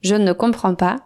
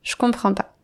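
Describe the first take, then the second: First: The word 'ne' is pronounced before the verb. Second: The word 'ne' is left out before the verb. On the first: This is the formal or written form. "Au lieu de dire" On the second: This is the everyday spoken form. "on ne prononce pas le « ne » de la négation"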